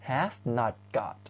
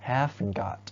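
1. have กับ not พูดเป็นสองคำแยกกัน 2. have กับ not ย่อรวมเป็นคำเดียว (1) "ถ้าเราจะพูดรูปเต็มเราจะพูดว่า" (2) "รูปย่อจะอ่านว่า"

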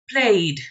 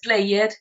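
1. El final es una D simple después de la vocal. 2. El final no es una D simple después de la vocal. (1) "Pronuncia usted la I y después la D" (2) "No es played"

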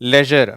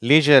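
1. முதல் உயிர் குறுகிய 'e' ஒலி. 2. முதல் உயிர் நீண்ட 'ee' ஒலி. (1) "லெஜர் அப்படின்னு சொல்லலாம்" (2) "சில பேர் இதை லீஜர் அப்படின்னு சொல்லுவாங்க"

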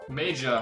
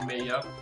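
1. Es wird englisch ausgesprochen. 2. Es wird deutsch ausgesprochen. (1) "Major heißt es übrigens" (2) "nicht Major"

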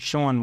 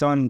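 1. સ્વર 'oh' જેવો સંભળાય છે. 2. સ્વર 'uh' જેવો સંભળાય છે. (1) "ખબર ન હોય તો હું વાંચી સોન વાંચી, પણ સોન નથી" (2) "તો કે સન છે"

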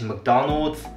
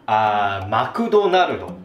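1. アメリカのアクセントで話されています。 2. 日本のアクセントで話されています。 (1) "In American English" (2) "That's the Japanese pronunciation of McDonald's"

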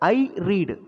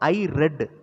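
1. read-ல் உள்ள உயிரெழுத்து நீண்டது, reed போல. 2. read-ல் உள்ள உயிரெழுத்து குறுகியது, red போல. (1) "இப்போ ஐ ரீடு, நான் வாசிக்கிறேன்" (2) "உச்சரிப்பு மட்டும் மாறணும். ஐ ரெட் அப்படின்னு சொல்லணும்"

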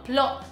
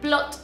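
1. La t final se omite. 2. La t final se pronuncia claramente. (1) "las palabras que tienen T, a veces no las pronuncio" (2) "en vez de decir plot"

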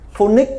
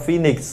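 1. Từ này được phát âm theo kiểu phát âm tiếng Việt. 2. Từ này được phát âm theo cách phát âm tiếng Anh. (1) "tất cả Việt Nam nó phát âm là phonics" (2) "nó phát âm phoenix"

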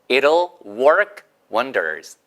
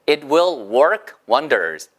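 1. 빨리 말하면 'it'll'로 줄여서 말해요. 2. 두 단어 그대로 'it will'이라고 해요.

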